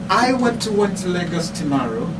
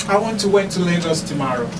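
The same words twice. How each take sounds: No difference in how they are said.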